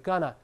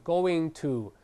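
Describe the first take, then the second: First: It is said fast, reduced to one blended word. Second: Both words are said fully and separately.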